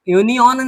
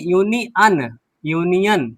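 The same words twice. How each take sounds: First: यूनियन as "yuni-on", ending in o; wrong pronunciation. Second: यूनियन as "yuni-an", ending in short a; correct pronunciation. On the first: Teacher rejects a misreading, यूनियन ending "on". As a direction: round the last vowel of यूनियन to "on". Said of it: "यूनियन नहीं". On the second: Teacher corrects the reading, यूनियन ending "an". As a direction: end यूनियन on "an". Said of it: "अन पढ़ रहे हैं". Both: Shown as a demonstration.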